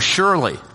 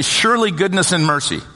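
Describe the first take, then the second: First: There is a clear pause after surely. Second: It runs on with no pause after surely.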